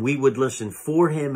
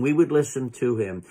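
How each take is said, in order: First: "for" leaned on within a steady line; stress on "for". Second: "to" leaned on within a steady line; stress on "to". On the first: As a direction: make "for" the strong word. Preacher contrasts for with to. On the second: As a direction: make "to" the strong word. Preacher contrasts to with for. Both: Real, not acted.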